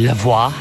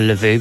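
First: The ending sounds like 'voila'. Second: The ending does not sound like 'voila'. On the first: The speaker calls it right. "it's actually Lavoie, as in voila" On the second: The speaker calls it wrong. "I called her Lavoie"

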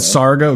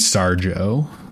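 First: The middle consonant is a hard g sound. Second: The middle consonant is a soft j sound. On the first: "I've gone Sargo" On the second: "It could be Sarjo. Like Sargento"

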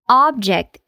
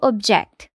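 First: The stress is on the first syllable. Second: The stress is on the second syllable. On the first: It is a noun meaning a thing. "se ela for um substantivo, o stress fica na primeira sílaba" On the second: It is a verb meaning to disagree. "Se ela for um verbo, o stress fica na segunda sílaba"

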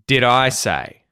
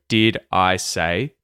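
First: The words are said quickly and run together. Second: The words are said slowly and separately.

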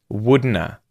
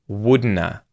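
No difference in how they are said.

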